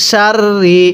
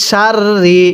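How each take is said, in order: Both takes have the same delivery.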